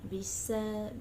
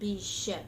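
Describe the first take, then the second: First: The middle consonant is a plain s sound. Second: The middle consonant is a solid sh sound. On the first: The speaker calls it wrong. "not bisa" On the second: The speaker calls it right. "make it solid"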